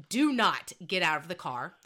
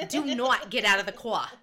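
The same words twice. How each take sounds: First: Lightly voiced stern mom, louder; serious mom. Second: Loud, hammed-up stern mom with dropped R; serious mom impression. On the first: Mom ordering her daughter to stay, lightly acted stern voice. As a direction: give a firm order with a hint of mom. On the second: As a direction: lay down the law as mom, r-less "car". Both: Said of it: "my mom looks at me and she's so ser".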